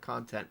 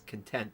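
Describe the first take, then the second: First: The stress is on the first syllable. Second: The stress is on the second syllable. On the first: It means material. The speaker calls it right. "instead of content" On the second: It means satisfied. The speaker calls it wrong. "I put the wrong emphasis on the wrong syllable"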